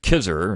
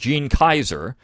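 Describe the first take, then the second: First: The name is pronounced as 'Kizer'. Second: The name is pronounced as 'Kaiser'. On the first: The speaker calls it wrong. "I mispronounced it Kizer" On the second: The speaker calls it right. "but it's Gene Kaiser"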